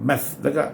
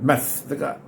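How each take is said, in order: The two takes are said the same way.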